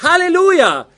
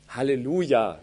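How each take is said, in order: First: It bursts out with strong, heartfelt feeling. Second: It is said flatly, without feeling. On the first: The praise comes from the whole heart. The speaker calls it right. "das kommt aus mir heraus" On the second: The praise does not sound convincing. The speaker calls it wrong. "dann ist das irgendwie komisch"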